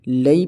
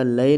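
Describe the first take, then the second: First: "لئی" gliding firmly into ee; clear lai. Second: "لئے" ending in open e; majhool lae. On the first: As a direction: close "لئی" on a y sound. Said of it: "لئی پڑھا جائے گا". ("لئی" معروف آواز میں) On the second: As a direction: let "لئے" end lax, la-e. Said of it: "لئے پڑھنا مجہول ہے". ("لئے" مجہول آواز میں) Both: Shown as a demonstration.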